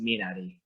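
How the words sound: It is said with a Korean pronunciation. The speaker calls it right. "as a Korean, I can tell you, it's actually pronounced Minari"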